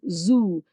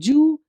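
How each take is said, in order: First: The word begins with a Z sound. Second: The word begins with a J sound. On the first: The speaker calls it right. "The sound is Z, not J" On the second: The speaker calls it wrong.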